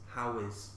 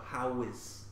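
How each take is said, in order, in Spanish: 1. Dos palabras completas separadas, how e is. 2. Dos palabras completas separadas, how e is.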